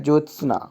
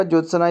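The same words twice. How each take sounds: First: ज्योत्सना as "jots-naa"; correct form. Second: ज्योत्सना as "jot-sa-na"; wrong form. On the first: Teacher reading correct spelling, ज्योत्सना as "jots-naa". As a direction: join s and n in ज्योत्सना. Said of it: "ये लिखा है". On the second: Teacher showing the mistake, ज्योत्सना as "jot-sa-na". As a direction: put a vowel between s and n in ज्योत्सना. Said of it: "इस तरह नहीं लिखा जाता". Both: Shown as a demonstration.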